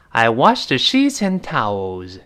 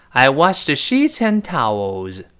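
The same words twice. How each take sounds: The two takes are said the same way.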